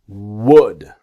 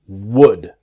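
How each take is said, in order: No difference in how they are said.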